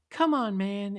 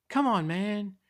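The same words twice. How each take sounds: First: High, loud mocking echo; loud, jeering mimicry of a whine. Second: High, loud, exasperated plea; loud whining appeal; pleading protest. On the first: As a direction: throw his plea back mockingly. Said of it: "Eddie said mockingly". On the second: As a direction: plead with a bully, voice pitched up. Guy pleads with the bully. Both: A narrator's reading.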